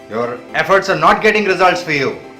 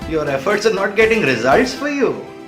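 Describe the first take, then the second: First: It is said in a playful, teasing tone. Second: It is said in a playful, teasing tone.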